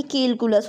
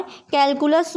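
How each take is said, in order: First: केलकुलस with a closed "ke" vowel; केलकुलस, quick and dropped; wrong form. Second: कैलकुलस said slowly with an open "kai" vowel; कैलकुलस, slow and deliberate; correct form, slowly. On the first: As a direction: read केलकुलस as ke-ku-las, the mistake. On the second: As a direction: stretch कैलकुलस out, clear kai-ku-las. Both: Shown as a demonstration. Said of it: "ना कि केलकुलस".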